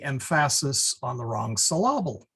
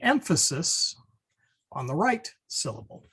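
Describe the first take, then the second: First: "emphasis" as em-FASS-is, "syllable" as sil-LAB-le; misplaced stress. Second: Said in the usual way. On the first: Shown as a demonstration. Teacher demonstrating wrong accents, "emphasis" and "syllable" stressed on second syllables.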